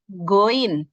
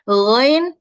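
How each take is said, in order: First: It starts with a hard g sound. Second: It starts with a soft gh from the throat. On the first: The speaker calls it wrong. "mengucapkan huruf lo dengan go" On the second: The speaker calls it right. "Ghain bukan goin ya"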